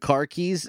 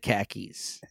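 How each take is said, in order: First: It is said in a general accent, keeping the r. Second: It is said in a Boston accent, dropping the r.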